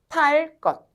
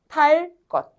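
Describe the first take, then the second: The two takes are said the same way.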